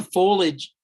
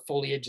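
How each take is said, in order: First: "foliage" as two syllables, FOH-lij. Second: "foliage" as three syllables, FOH-lee-ij. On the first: Tour guide on autumn colours, "foliage" said FOH-lij. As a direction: say "foliage" without the middle ee sound. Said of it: "or foliage, as I'd say". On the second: Tour guide giving her own version, "foliage" said FOH-lee-ij. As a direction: sound the middle ee in "foliage". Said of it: "as I'd say". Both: Real, not acted.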